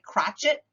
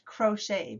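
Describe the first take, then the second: First: The word ends with an 'et' sound. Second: The word ends with an 'ay' sound. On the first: It is read as it is spelled. The speaker calls it wrong. "it looks like crotchet" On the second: It keeps its French pronunciation. The speaker calls it right. "but it's crochet because it's French"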